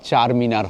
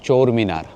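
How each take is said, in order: First: The first word has an 'ah' vowel. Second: The first word has an 'oh' vowel. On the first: This is how it is said back home. "মানে চোর নয়, চার মিনার হবে" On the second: This is how the locals say it. "এখানে চারটাকে সবাই বলে চোর"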